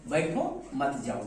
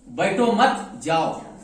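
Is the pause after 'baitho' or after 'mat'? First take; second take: after baitho; after mat. First: The pause comes right after 'baitho'. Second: The pause comes right after 'mat'.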